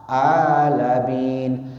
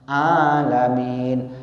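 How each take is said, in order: Both takes have the same delivery.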